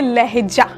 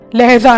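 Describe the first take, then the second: First: The last consonant is a j sound. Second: The last consonant is a z sound. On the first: The speaker calls it right. "यहां बोलेंगे लहजा" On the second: The speaker calls it wrong. "इसमें फालतू का जा नहीं लगाना, लहजा नहीं बोल सकते"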